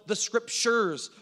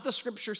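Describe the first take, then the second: First: "scriptures" with its last syllable and final s punched; stress on plural ending. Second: "scriptures" said as singular, "scripture", without the final s; singular ending. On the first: Preacher points out the plural, stressing the end of "scriptures". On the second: Preacher rules out the singular, "scriptures" without its final s. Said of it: "not the scriptures singular". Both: Shown as a demonstration.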